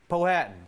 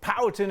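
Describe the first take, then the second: First: The name is said the local Colorado way. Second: The name is said the traditional tribal way. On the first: This is how people living nearby say it. "The locals say" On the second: This is how the tribe itself says it.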